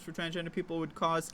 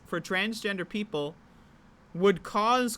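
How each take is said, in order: First: It is read at a normal pace. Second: It is read slowly and deliberately.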